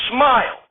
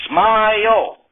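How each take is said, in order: First: Said in the usual way. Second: "Smile" stretched into two beats, smy-ull; two-syllable smile. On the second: Acted. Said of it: "Smile sounds like it has two syllables".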